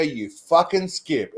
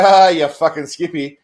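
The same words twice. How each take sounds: First: Drawn-out contemptuous jab; mock hostile insult, slowed right down. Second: Jovial ribbing. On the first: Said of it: "it's all about how you use shit". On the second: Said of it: "it's all right". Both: Shown as a demonstration.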